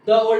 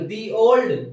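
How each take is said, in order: First: 'The' is said with a short 'thuh' vowel. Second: 'The' is said with a long 'thee' vowel. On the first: The speaker calls it wrong. "द old नहीं बोलेंगे" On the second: The speaker calls it right. "यहां पर क्या बोलेंगे, दी old"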